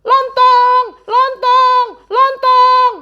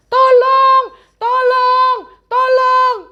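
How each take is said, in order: First: High loud panicked cries; mock panicked shout; frantic yelling. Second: High loud frantic calls; mock terrified shouting; panicked cries for help. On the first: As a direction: yell as if in panic. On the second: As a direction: scream for help in fear. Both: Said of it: "Mereka berteriak-teriak".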